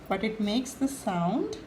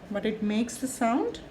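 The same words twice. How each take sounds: The two takes are said the same way.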